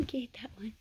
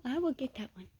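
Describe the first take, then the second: First: Whisper. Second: Said in the usual way. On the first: Real, not acted. Whispered repeat.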